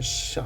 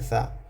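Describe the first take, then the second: First: It begins with a hushing 'sh' sound. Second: It begins with tongue against upper teeth. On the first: The speaker calls it wrong. "इसमें बाज़ लोग गलती करते हैं कि शीन पढ़ते हैं" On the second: The speaker calls it right. "ये शा नहीं है, ये ये सा है"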